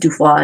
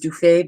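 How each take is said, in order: First: The last syllable sounds like 'foy'. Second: The last syllable sounds like 'fay'. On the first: This is how it was said in the fifteenth century. "it was actually apparently pronounced Dufoy in the fifteenth century" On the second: This is how people usually say it today. "you all might pronounce it as Dufay"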